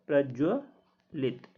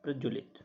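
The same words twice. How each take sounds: First: प्रज्वलित drawn out very slowly, syllable by syllable; slow model pronunciation. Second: प्रज्वलित repeated quietly and low; soft recap. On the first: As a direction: spell out प्रज्वलित slowly for students to copy. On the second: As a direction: say प्रज्वलित again softly as a closing note. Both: Shown as a demonstration. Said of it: "single आता है".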